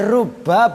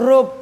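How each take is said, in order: First: The b is doubled and followed by a vowel. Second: The word ends on a bare b with no vowel. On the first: "Boleh rubah bitasdid" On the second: "Boleh juga dibaca sukun rub"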